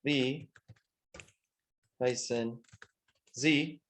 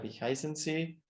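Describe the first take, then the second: First: Slow dictation, long gaps between words; palabra por palabra. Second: Said in the usual way. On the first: Shown as a demonstration. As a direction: give each word alone, as if writing it. Escribe la pregunta palabra por palabra. (dictado lento, palabra por palabra)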